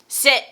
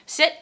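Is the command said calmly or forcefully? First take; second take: forcefully; calmly. First: The word is said in a firmer, more forceful tone. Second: The word is said in a calm, normal tone. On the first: The dog did not respond the first time. "they normally change the tone of the verbal cue" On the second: This is the usual, intended way to give the cue. "they say the command how they always want to say the command"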